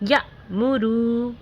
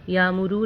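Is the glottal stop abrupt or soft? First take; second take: abrupt; soft. First: The glottal stop is made with an abrupt catch. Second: The glottal stop is soft and barely marked. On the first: The speaker calls it right. "झटके के साथ पढ़ना है" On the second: The speaker calls it wrong. "या मुरू नहीं पढ़ना है"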